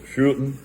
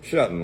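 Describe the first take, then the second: First: The first vowel sounds like the one in 'shoot'. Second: The first vowel sounds like the one in 'shut'. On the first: "the German pronunciation is sh- is shooten" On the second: "American pronunciation"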